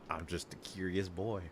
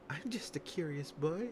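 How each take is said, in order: First: It is said in his ordinary speaking voice. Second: It is said in an altered, put-on voice.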